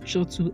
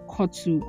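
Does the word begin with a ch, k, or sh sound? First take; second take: ch; k. First: The word begins with a ch sound. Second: The word begins with a hard k sound. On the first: "I don't think it's chotu either" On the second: "it's not pronounced kotu"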